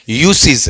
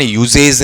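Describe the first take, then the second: First: It has an s sound and ends in -seez. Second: It has a z sound and ends in -zej. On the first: The speaker calls it right. "क्या है, यूसीज है" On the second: The speaker calls it wrong. "इसका उच्चारण यूजेज नहीं है"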